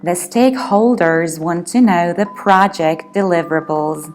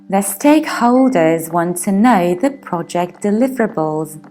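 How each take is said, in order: First: It is spoken in an American accent. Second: It is spoken in a British accent.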